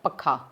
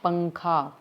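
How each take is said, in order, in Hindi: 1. पहले अक्षर में कोई नासिक्य ध्वनि नहीं है। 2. पहले अक्षर में नासिक्य ध्वनि है। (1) "अगर हम इसके ऊपर अनुस्वार नहीं लगाएं तो उसका उच्चारण कैसा होगा" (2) "हम इसके ऊपर अनुस्वार लगाएंगे तो इसका उच्चारण किस प्रकार होगा"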